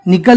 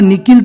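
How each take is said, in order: First: The second vowel sounds like 'a'. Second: The second vowel sounds like 'i'. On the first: The speaker calls it right. "निकल ही पढ़ेंगे" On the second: The speaker calls it wrong. "निकिल तो नहीं पढ़ेंगे"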